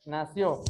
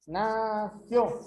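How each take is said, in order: First: Said in the usual way. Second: "Nació" drawn out as two syllables; split into syllables. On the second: Shown as a demonstration. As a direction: stretch "Nació" into na... ció. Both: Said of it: "dos sílabas".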